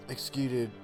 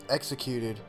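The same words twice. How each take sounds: The two takes are said the same way.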